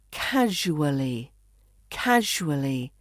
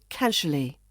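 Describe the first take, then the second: First: "casually" in full, KAZH-oo-uh-lee, drawn out; careful four-syllable "casually"; full pronunciation. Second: "casually" shortened to KAZH-uh-lee; relaxed three-syllable "casually"; reduced pronunciation. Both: Shown as a demonstration. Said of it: "we reduce this to".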